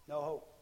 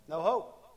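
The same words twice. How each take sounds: First: Said in the usual way. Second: Answer called out. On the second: Shown as a demonstration. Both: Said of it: "They feel like there's what?".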